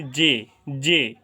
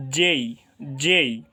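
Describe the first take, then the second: First: জে with a plain e, no glide; common mispronunciation. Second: জেই gliding from e into i; correct pronunciation. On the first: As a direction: cut the glide from জে. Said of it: "এটাকে আমরা এতদিন বলছি". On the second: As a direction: say জেই as English "jay". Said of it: "এটা সঠিক উচ্চারণ হবে". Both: Shown as a demonstration.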